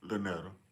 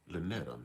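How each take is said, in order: First: It is said in his normal voice. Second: It is said in a sexy radio voice.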